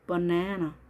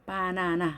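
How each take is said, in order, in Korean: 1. 강세는 가운데 음절에 있어요. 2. 모든 음절을 같은 강세로 발음해요. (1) "두 번째 A 엄마가 힘이 제일 세게 발음이 됩니다" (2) "우린 이렇게 표현을 하죠"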